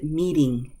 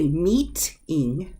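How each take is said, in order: First: The middle consonant is a quick, soft D. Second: The middle consonant is a crisp, released T. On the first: "we pronounce it meeting" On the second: "I can say meeting"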